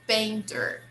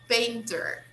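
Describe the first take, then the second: No difference in how they are said.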